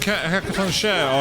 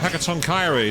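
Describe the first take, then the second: First: The name ends with a one-syllable 'share' sound. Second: The name ends with a two-syllable 'kiree' sound.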